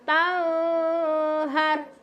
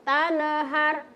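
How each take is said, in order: First: The n is held with a nasal hum. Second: The n gets a bounce with an extra vowel. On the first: "dikasih dengung" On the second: "Tidak boleh mau kasih-kasih pantul"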